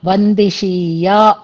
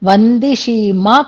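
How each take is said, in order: First: The word ends with a 'ya' sound. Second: The word ends with a 'ma' sound. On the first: The speaker calls it right. "వందిషీయా అనేది క్రియాపదం" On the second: The speaker calls it wrong. "వందిషీమా కాదది"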